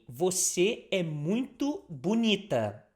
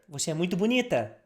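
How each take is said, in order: First: It is said at a normal, careful speed. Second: It is said a little faster.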